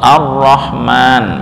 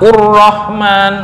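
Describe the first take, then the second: First: The word begins with an a vowel. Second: The word begins with a u vowel. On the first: The speaker calls it right. "lafal Ar-Rahman itu juga hamzah wasal" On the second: The speaker calls it wrong. "tapi malah dibaca dhammah"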